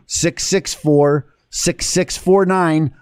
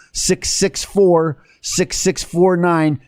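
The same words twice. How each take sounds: The two takes are said the same way.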